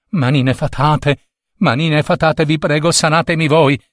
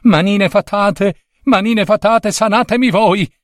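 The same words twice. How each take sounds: First: Imploring little prince, slightly raised pitch; measured first plea; pleading. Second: High, insistent imploring; desperate high-pitched plea; urgent pleading. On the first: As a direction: beg the magic hands, moderately high. Prince begs magic hands, first try. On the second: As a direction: beg in a high-pitched little prince's voice. Prince begs again more urgently. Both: A narrator's reading.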